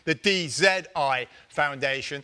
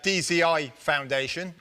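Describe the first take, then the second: First: The Z is said the English way, 'zed'. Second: The Z is said the American way, 'zee'.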